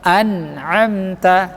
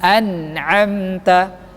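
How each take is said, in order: Both takes have the same delivery.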